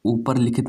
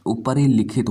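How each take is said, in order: First: ऊपर लिखित as "upar likhit"; two separate words, ऊपर ending on a plain r; wrong form without "i". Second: ऊपर ही लिखित run as "upari-likhit"; correct form with "i". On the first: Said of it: "नहीं होता". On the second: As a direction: stress the "ri" joining ऊपर ही लिखित. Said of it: "होता है". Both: Shown as a demonstration.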